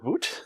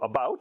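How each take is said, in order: First: It is said with a Canadian accent. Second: It is said with the speaker's American accent.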